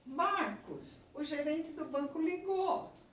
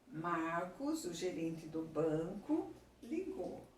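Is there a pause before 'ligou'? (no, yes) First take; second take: no; yes. First: There is no pause before 'ligou'. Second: There is a pause before 'ligou'. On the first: Marcos is being told that the bank manager called. "Neste primeiro aqui, Marcos é vocativo" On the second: Marcos, who is the bank manager, called. "Neste daqui, o gerente do banco é um aposto"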